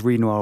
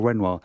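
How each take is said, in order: First: "Renoir" opening on a long ee, REEN-wah. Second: "Renoir" opening on a short e, REN-wah. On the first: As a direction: make "Renoir" start like "reen". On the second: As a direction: make "Renoir" start like "wren". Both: Shown as a demonstration. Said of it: "whether he's Renoir or Renoir".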